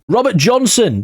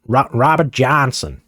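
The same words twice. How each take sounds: First: Said in the usual way. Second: Slow, badly faked American accent. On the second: British football gamer mimicking an American name, bad American accent. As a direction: attempt a drawn-out American pronunciation of the name. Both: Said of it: "That was my impression at an American accent".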